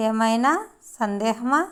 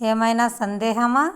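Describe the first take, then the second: First: ఏమైనా rising, pause, సందేహమా rising; word by word. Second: Said in the usual way. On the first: Shown as a demonstration. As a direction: break the question between ఏమైనా and సందేహమా. Teacher repeats question word by word. (ఏమైనా తర్వాత ఆగి సందేహమా అని అడగడం)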